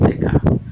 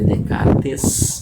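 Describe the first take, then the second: First: The name is said in its spoken French form. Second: The name is sounded out letter by letter. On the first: This is how the name is actually pronounced. "porém pronuncia-se Descartes" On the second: This is how the name is written. "Escreve Descartes"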